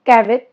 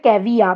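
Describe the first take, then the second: First: The word ends with a t sound. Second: The word ends without any t sound. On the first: The speaker calls it wrong. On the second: The speaker calls it right.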